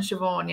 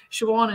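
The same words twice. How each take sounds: First: Said in the usual way. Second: Siobhan as "shoo-AWN", no v; w pronunciation. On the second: Shown as a demonstration. Speaker listing both forms of the name, w pronunciation. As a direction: say Siobhan with a w glide, "shoo-wawn". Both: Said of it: "there's both of them".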